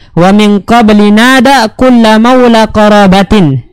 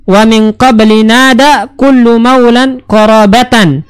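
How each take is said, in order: First: The final word ends with an 'in' sound. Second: The final word ends with an 'an' sound. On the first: The last word is the possessor of the word before it. "Kalau kita baca majrur" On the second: The last word is the object of the verb. "kalau kita baca mansub"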